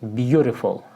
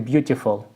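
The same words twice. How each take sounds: First: The middle consonant is a soft r-like sound. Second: The middle consonant is a clear t sound. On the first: "in the American pronunciation, it's like a beautiful with er in the middle" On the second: "you can read it like a beautiful"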